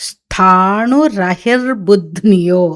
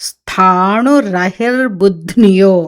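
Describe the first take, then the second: The two takes are said the same way.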